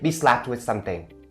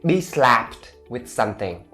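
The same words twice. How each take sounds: First: It is faster, with the PT sounds softened. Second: It is slower, with the PT sounds said clearly.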